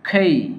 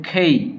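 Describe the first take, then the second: First: It starts with an aspirated k and gliding vowel. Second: It starts with an aspirated k and gliding vowel.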